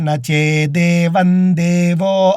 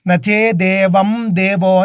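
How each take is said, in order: First: The nasal sound is made without closing the lips. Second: The lips close fully on the nasal sound. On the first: The speaker calls it right. "వందే అన్నప్పుడు ఏ విధంగా చెబుతామో అదేవిధంగా" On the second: The speaker calls it wrong. "అక్కడ నోరు మూసి చాలామంది చెబుతూ ఉంటారు తెలియక"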